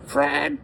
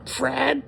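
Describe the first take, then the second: Both takes have the same delivery.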